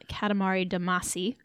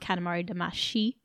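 First: The name is said with an English-style pronunciation. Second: The name is said with a Japanese-style pronunciation.

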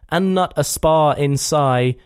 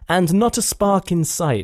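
First: The final consonants are dropped and mumbled. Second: The final consonants are clearly pronounced. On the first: "Sounded like" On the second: "sounds Shakespearean"

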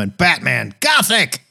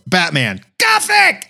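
First: It is read at normal volume. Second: It is yelled loudly.

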